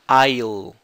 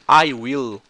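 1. As palavras são contraídas em uma sílaba. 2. As duas palavras são ditas por completo. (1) "vira isso aqui. I'll" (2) "I will, vira isso aqui"

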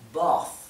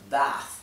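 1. La vocal es más cerrada, en acento británico. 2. La vocal es abierta, en acento americano. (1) "Para un inglés más británico, las vocales son más cerradas. Esto sería bath" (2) "se pronunciarían así en inglés americano, que tiene las vocales bien abiertas"

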